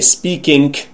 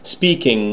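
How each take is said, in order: First: The ending is said with a k sound. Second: The ending is said with an ng sound. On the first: The speaker calls it wrong. "pronounce the ing sound as k or even g" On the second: The speaker calls it right. "You should pronounce it speaking"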